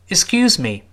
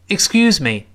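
First: The word me is weak and quickly passed over. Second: The same.

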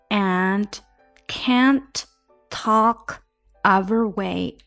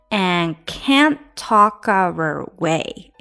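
First: The words are said more separately, with clearer endings. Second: The words run together with dropped final sounds.

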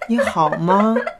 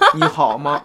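First: The voice is soft, high and cutesy. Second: The voice is plain, not soft or cutesy. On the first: The speaker calls it right. "我们可以先来试试这么嗲嗲的说话。" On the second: The speaker calls it wrong. "没有一个人发嗲是这种声音。"

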